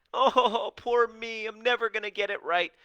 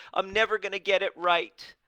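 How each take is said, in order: First: High, loud whiny moan with a laugh; a hammed-up, laughing poor-me whine; mock self-pity. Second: High, loud whiny wail of defeat; a hammed-up moan that nothing works; mock self-pity. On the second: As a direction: ham up the poor-me voice. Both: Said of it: "And you have this".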